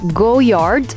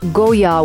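First: The word ends with a D sound. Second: The word ends without a D sound. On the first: The speaker calls it wrong. "it's written Goyard" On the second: The speaker calls it right. "it's actually pronounced Goyard without the D at the end"

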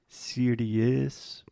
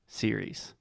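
First: It has three syllables, like 'serious'. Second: It has two syllables, like 'seer-eez'. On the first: The speaker calls it wrong. "A lot of our students have the tendency to say something like serious" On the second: The speaker calls it right. "the correct pronunciation is simply series"

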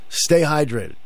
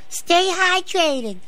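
First: It is said in a natural, normal voice. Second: It is said in a strained, put-on voice.

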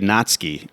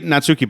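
First: The u after the t is silent. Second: The u after the t is clearly pronounced. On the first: The speaker calls it right. "There's a U in there, but you don't say it in the Japanese language" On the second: The speaker calls it wrong. "I say Natsuki"

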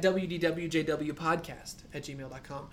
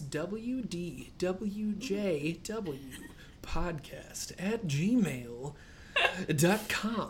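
First: It is said at a faster pace. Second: It is said at a slower pace.

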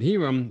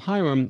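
First: The name is pronounced the Spanish way. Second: The name is pronounced the English way. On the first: "Hiram is the correct Spanish pronunciation" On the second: "Hiram is the correct English pronunciation"

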